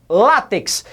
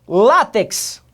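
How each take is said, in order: Both takes have the same delivery.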